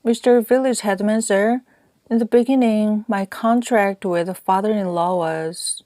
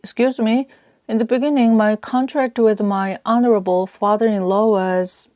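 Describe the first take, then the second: First: Higher-pitched address to an official; lightly acted petitioner, pitched up; earnest appeal. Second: Higher-pitched restart with "honorable" carefully inserted; raised, deferential voice adding "honorable" before "father-in-law"; polite self-correction. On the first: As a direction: begin a formal plea, then break off. Narrator appeals to headman, hurrying. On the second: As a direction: correct yourself, giving "honorable" its due. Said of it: "thought again and corrected myself". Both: A narrator's reading.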